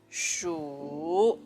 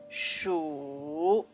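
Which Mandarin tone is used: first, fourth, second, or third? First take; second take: third; third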